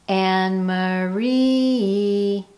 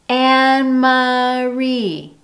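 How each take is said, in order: First: The vowel after the M is a quick schwa. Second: The vowel after the M is full and clear. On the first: The speaker calls it right. "The M of my name is unstressed" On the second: The speaker calls it wrong. "you don't hear Anne Marie"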